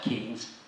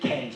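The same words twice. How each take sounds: First: Keynes is pronounced the way its spelling suggests. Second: Keynes is pronounced the village's own way. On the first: This is how the name is written. "I know it's spelt Keynes" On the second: This is how the locals prefer to say it. "we prefer to pronounce it Keynes"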